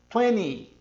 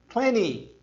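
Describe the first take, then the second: Both takes have the same delivery.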